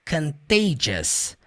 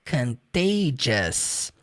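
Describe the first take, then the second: Both takes have the same delivery.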